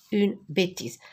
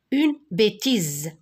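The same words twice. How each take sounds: First: Said in the usual way. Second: Slow, drawn-out "bêtise" with a buzzing Z; "bêtise" slowly modelled, final S voiced as Z; sounded-out bêtise. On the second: Shown as a demonstration. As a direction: stretch "bêtise" so the Z sound is heard.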